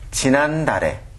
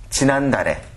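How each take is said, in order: Both takes have the same delivery.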